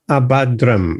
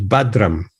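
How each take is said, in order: First: The word starts with an extra 'a' vowel. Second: The word starts directly with a 'b' sound. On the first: The speaker calls it wrong. "it's not Abba, Abhadram" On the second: The speaker calls it right. "it's Badram"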